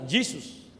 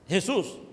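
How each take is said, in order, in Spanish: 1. El nombre se pronuncia como en inglés. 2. El nombre se pronuncia como en español. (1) "Si lo dice el nombre de Jesús en inglés, suena Jesus" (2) "no suena Jesús"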